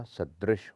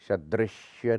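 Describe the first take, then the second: First: सदृश ending on sh; correct plain sh. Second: सदृश्य ending "shya"; wrong added y. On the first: Teacher correcting it, सदृश with plain sh. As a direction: finish सदृश without a y. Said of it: "होता है". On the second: Teacher showing the error, सदृश्य with shya ending. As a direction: add a ya to the end of सदृश्य. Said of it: "नहीं होता". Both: Shown as a demonstration.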